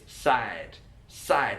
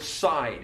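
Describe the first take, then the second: First: "side" with a tight flat vowel, like "sad"; London MLE vowel. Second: Said in the usual way. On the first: Shown as a demonstration. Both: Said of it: "also with side".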